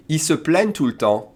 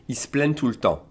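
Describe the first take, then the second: First: Said in the usual way. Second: "Ils se plaignent" run together as "iss-plenn"; fast-speech elision. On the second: Shown as a demonstration. Teacher showing how French people speak fast, elided casual French. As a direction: drop the vowel of "se" in "Ils se plaignent". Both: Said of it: "French one speaking fast will say".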